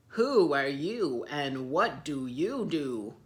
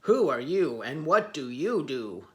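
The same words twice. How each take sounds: First: Slow, loud, rude demand; rude elephants. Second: Loud, rumbling lion roar. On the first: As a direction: bark it at the stranger. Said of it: "not very nicely". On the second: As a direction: roar the question. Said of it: "the lions roared". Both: Acted.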